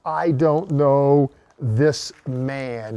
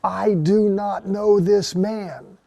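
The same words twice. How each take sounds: First: Very slow, weighted "I don't know this man"; heavy denial. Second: Slow, high, forceful I DO NOT KNOW; emphatic denial. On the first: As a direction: let the denial sink like a confession of failure. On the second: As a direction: stamp each word of "I do not know this man" hard. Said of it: "He's emphatic". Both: Retold or imitated.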